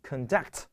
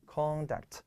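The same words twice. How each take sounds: First: "conduct" stressed on the second syllable, con-DUCT; verb stress. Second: "conduct" stressed on the first syllable, CON-duct; noun stress. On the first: Teacher contrasts the verb for students, con-DUCT. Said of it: "注意它的重音在这里". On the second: Teacher shows students the noun stress, CON-duct. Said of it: "注意重音在这里". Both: Shown as a demonstration.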